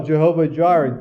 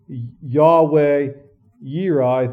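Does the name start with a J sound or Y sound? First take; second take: J sound; Y sound. First: The name begins with a J sound. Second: The name begins with a Y sound. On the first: This is the commonly heard, German-derived form. "when you hear like Jehovah Jireh" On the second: This is the original Hebrew form. "Technically in Hebrew is Yahweh Yireh"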